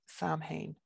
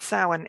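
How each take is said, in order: First: It is said with the American media pronunciation. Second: It is said with the native Irish pronunciation. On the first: This is a version heard in the media that nobody who speaks the language uses. The speaker calls it wrong. "I'm going to steal myself and say Samhain. Nobody pronounces it like that" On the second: This is how speakers of the language say it. The speaker calls it right. "Samhain is how we pronounce uh, the the Irish term for Halloween"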